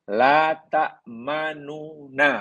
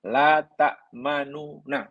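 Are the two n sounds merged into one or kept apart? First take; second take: kept apart; kept apart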